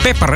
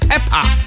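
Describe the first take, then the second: First: The name ends like the English word pepper. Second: The name ends in a plain open 'a' vowel. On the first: The speaker calls it wrong. "Ik zeg ook altijd Pepper" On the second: The speaker calls it right. "Maar het is Peppa"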